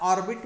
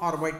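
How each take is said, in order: First: The second syllable has a short 'i' vowel. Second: The second syllable has a long 'ai' vowel. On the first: "त्याला ऑर्बिट म्हणतात" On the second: "किंवा ऑर्बाइट म्हणतात. उच्चार कसा केला तरी बरोबर आहे"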